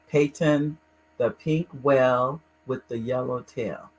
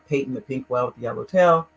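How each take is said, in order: First: The title is said more slowly. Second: The title is said quickly. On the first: The speaker calls it right. "Let me say it again" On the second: The speaker calls it wrong. "I always say it too fast"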